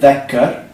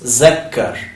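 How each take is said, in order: First: The word begins with a voiced 'th' sound. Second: The word begins with a 'z' sound.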